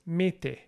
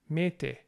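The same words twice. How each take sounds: First: The final vowel is a full vowel. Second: The same.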